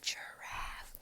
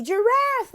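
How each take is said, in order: First: Breathy, very soft "giraffe"; whisper. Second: High, excited "giraffe"; child's answer. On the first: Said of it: "you whisper it". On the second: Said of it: "or they might say". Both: Shown as a demonstration.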